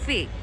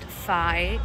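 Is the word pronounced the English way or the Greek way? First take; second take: Greek; English. First: It is pronounced the Greek way. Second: It is pronounced the English way. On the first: The speaker calls it right. "it's phi" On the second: The speaker calls it wrong. "This is not phi"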